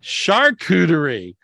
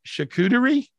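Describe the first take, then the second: First: Charcuterie. said slowly with a firm falling tune; confident pronunciation. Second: Charcuterie? tried high and questioning; unsure pronunciation. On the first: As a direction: settle on Charcuterie, drawn out and sure. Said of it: "[name], what's the word?". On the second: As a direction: test out Charcuterie with a rising, doubtful tune. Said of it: "how do you say the word?". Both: Shown as a demonstration.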